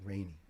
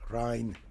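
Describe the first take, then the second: First: The name sounds like the English word rainy. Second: The name sounds like the German word Rhein. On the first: The speaker calls it right. "is her nickname Rainy? From pronunciation" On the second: The speaker calls it wrong. "I was thinking more of the German, you know?"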